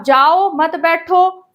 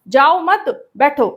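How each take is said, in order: First: जाओ set apart, then मत बैठो run together; pause after जाओ. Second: जाओ मत run together, then बैठो set apart; pause after मत. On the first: Teacher showing a second meaning to students, pause after जाओ. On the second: Teacher showing a second meaning to students, pause after मत. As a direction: join मत to जाओ, break before बैठो. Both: Shown as a demonstration.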